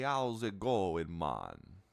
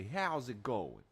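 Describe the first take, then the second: First: Hammed-up Jamaican troll, stretched out slowly; Jamaican accent. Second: Slow, loud, higher-pitched Brooklyn greeting; Brooklyn accent. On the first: Gamer imitating trolls that all talk Jamaican, hammed-up Jamaican accent. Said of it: "They're all Jamaican". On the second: Acted. Gamer showing how the goblins say hello, exaggerated Brooklyn accent. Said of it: "They're all from, like, Brooklyn".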